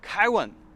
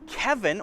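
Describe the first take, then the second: First: The middle consonant is a W sound. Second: The middle consonant is a V sound. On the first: "So I'm changing the V to a W sound" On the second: "instead of V"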